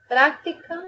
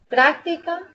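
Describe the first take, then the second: First: Práctica said as practica, stress on TI; stress moved later. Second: Práctica with the stress on PRÁC; stress on first syllable. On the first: Teacher contrasting with a shifted stress. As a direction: lean on TI in práctica, rising. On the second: Teacher showing stress on the first syllable. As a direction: hit PRÁC in Práctica, rising at the end. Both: Shown as a demonstration. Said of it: "por la posición del acento podemos distinguir".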